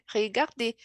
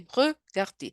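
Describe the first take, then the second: First: The first vowel sounds like a Brazilian Portuguese e. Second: The first vowel is a French schwa sound. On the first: The speaker calls it wrong. "mas não é regarder" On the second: The speaker calls it right. "é regarder"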